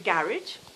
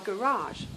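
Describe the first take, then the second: First: Garage is said the British way. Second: Garage is said the American way.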